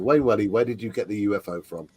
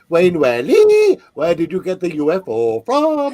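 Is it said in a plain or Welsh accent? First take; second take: plain; Welsh. First: It is said in a plain accent. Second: It is said in a Welsh accent.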